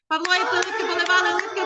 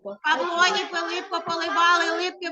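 First: It is spoken at the fastest pace. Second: It is spoken at a faster pace. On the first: "А тепер давайте ще швидше" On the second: "тільки треба швидше"

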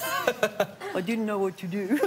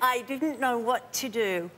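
First: It is said in a put-on Russian accent. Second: It is said in the speaker's usual accent.

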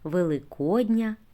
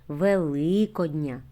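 First: The stress is on the o syllable. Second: The stress is not on the o syllable. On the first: It is an adjective meaning of Easter. "якщо слово вживаємо як прикметник, то наголос на О" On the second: It is a form of the noun meaning Easter. "якщо це родовий відмінок іменника"

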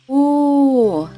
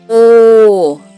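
First: The vowel is said quietly. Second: The vowel is said loudly. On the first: A little bear cub is making the sound. "а маленьке ведмежа тихо" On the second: A big bear is shouting. "Ведмідь кричить голосно"

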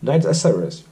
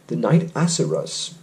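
First: It is said fast, running together. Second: It is said at normal speed.

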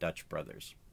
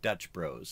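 First: The second word is said as full two syllables. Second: The second word is said as one short syllable. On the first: The speaker calls it wrong. "It's not Dutch Brothers" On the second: The speaker calls it right. "that's the way that they pronounce it"

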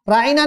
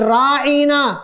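First: The first syllable is short and clipped. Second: The first syllable is long and drawn out. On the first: Take care of us. The speaker calls it right. "झटके के साथ कहें" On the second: Our shepherd. The speaker calls it wrong. "झटके के बजाय राई कहेंगे"

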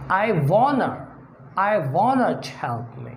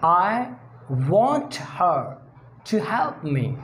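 First: The h sound in 'her' is dropped. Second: The h sound in 'her' is pronounced. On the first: The speaker calls it right. "Pronounce her without H" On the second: The speaker calls it wrong. "Instead of saying"

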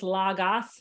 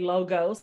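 First: It is said with the original Greek pronunciation. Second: It is said with the common everyday pronunciation. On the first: "The original Greek translation or way of saying it is logos" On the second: "but people all over say logos"

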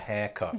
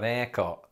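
First: The h at the start is pronounced. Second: The h at the start is dropped.

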